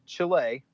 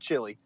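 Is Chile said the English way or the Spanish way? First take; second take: Spanish; English. First: Chile is said with a Spanish-like pronunciation. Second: Chile is said with an English-like pronunciation. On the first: The speaker calls it right. "which I have been told is the right way to pronounce that" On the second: The speaker calls it wrong. "because I said Chile, and I've had several people correct me"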